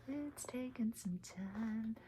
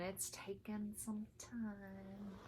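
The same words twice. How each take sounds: First: Unvoiced whisper echo; whispered repeat. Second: Said in the usual way. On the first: Real, not acted. Stitcher repeating her slow progress, whispered. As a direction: whisper it again as a confession. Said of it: "repeated line". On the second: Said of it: "repeated as whisper".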